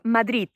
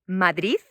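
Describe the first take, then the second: First: The word ends with a t sound. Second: The word ends with a z sound. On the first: "as if the last uh, letter was a T" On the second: "as if the word finished by a Z instead of a D"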